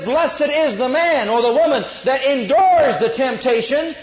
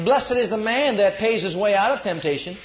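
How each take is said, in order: First: Loud, slow, high, ringing out the verse; preached correction, stressing endures; emphatic scripture quote. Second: Said in the usual way. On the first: Shown as a demonstration. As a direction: proclaim the true verse over the wrong one. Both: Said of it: "But it says".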